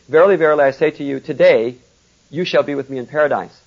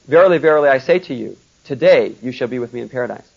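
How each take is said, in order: First: The pause comes after the word today. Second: The pause comes before the word today.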